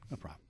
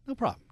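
First: Low, soft throwaway; murmured low "No problem."; low mumble. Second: High bright reassurance; sing-song "No problem." up top; high cheery. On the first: Second take of the same phrase. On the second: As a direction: toss off "No problem." high and loud. Host reassures caller, repeats phrase. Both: Real, not acted.

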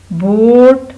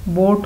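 First: बोट loud and stretched, pitch climbing through it; drawn-out model word. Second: Said in the usual way. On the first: Shown as a demonstration. Teacher modelling the word for pupils, drawn-out model word. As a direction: stretch बोट out loudly for the class.

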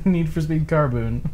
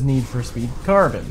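First: Carboon with a long oo, said slowly; imitating the friend's Carboon; Carboon mispronounced. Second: Said in the usual way. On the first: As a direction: say Need for Speed Carboon, savoring the oo. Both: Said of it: "he says Carboon".

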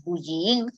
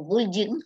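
First: Bullying read letter by letter the Spanish way, bu-lli-ying; Spanish spelling reading. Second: Bullying said the English way, BUL-ee-ing; English pronunciation. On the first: Lecturer warns class, reading bullying the ridiculous Spanish way. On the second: Lecturer contrasts for class, saying bullying the English way. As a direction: switch to English sounds for bullying. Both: Shown as a demonstration. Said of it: "haremos el ridículo si leemos bullying".

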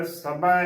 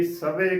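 First: ਸਭਾ with the last vowel as open ai; open ai ending. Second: ਸਭੇ ending in narrow long e; close e ending. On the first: Teacher spelling with dulawan, ਸਭਾ with open ai. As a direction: end ਸਭਾ on a wide 'ae'. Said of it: "ਕਰਨਾ ਹੈ". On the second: Teacher showing the congregation's mistake, ਸਭੇ with close e. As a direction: close the final vowel of ਸਭੇ. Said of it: "ਨਾ ਕਿ". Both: Shown as a demonstration.

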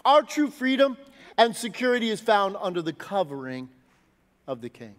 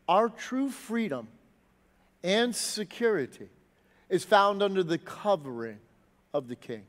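First: Said in the usual way. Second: Softer, slower, each phrase set apart; slow, emphatic repeat. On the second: Shown as a demonstration. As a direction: let "Our true freedom" sink in slowly. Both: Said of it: "the thought I want us to grapple with".

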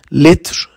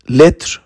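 First: Said in the usual way. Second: لتر whispered with no voice; whispered echo. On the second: Shown as a demonstration. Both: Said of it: "teacher repeats word".

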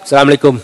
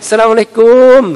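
First: Short, offhand acted greeting; perfunctory greeting. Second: Effusive greeting. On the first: Grandchild dropping a bag and heading off, perfunctory greeting. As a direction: toss off the greeting in passing. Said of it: "ส่วนเราเป็นยังไง วางกระเป๋า วางเป้ปั๊บ". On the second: Acted. Another grandchild arriving to charm grandmother, effusive greeting. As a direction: greet grandmother as if delighted to see them. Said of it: "แต่อีกคนนึงมา หลานอีกคนมายังไง".

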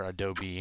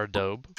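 First: "adobe" with the final e sounded, uh-DOH-bee; three-syllable adobe. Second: "adobe" with a silent final e, uh-DOHB; two-syllable adobe. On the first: Player offering the other way, "adobe" as uh-DOH-bee. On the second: Player unsure how the word is said, "adobe" as uh-DOHB. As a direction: say "adobe" to rhyme with robe. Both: Shown as a demonstration. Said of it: "however you say it".

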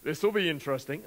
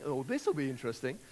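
First: Said in the usual way. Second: Doubtful tone. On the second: Shown as a demonstration. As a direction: lower and softer, a hint of scepticism. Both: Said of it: "depending on the tone that you have in that voice".

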